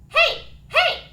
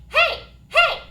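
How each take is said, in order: Both takes have the same delivery.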